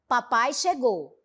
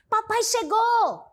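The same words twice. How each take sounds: First: It is said as a plain, neutral statement. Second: It is said with a joyful, excited tone. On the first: The speaker simply states the arrival as fact. "eu estou fazendo uma afirmação" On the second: The speaker is happy about the arrival. "imprimir o sentido de alegria"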